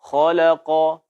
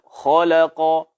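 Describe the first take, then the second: The two takes are said the same way.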